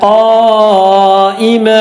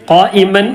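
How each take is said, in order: First: The word ends with an a vowel. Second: The word ends with an n sound. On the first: The speaker calls it right. "തൻവീൻ ഫത്തുള്ളത് നിർത്തേണ്ടത്" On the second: The speaker calls it wrong. "ഖായിമൻ എന്ന് പറഞ്ഞിട്ടില്ല"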